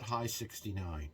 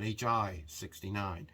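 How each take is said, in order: First: It is read as the word high plus sixty-nine. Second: It is read as two letters plus sixty-nine. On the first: "It's not High sixty-nine" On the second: "It's not H I sixty-nine"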